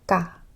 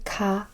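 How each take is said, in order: First: The consonant has no puff of air. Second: The consonant has a puff of air. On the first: The speaker calls it right. "I will say ka. Can you hear that? There's no air in there" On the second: The speaker calls it wrong. "I will not say ka"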